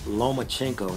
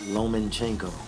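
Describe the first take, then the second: First: There is no n sound before the ch. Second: An extra n sound comes before the ch. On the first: The speaker calls it right. "it's Lomachenko" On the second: The speaker calls it wrong. "not Lomanchenko"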